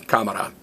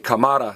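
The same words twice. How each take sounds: First: The stress is on the first syllable. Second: The stress is on the second syllable. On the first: The speaker calls it right. "stress me" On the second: The speaker calls it wrong. "don't stress the next to last vowel. Don't say cámara"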